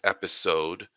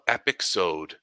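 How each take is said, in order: First: The middle consonant is a plain s sound. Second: The middle consonant is a ks sound. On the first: The speaker calls it right. "I know how to say it right. It's episode" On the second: The speaker calls it wrong. "What did you call it?"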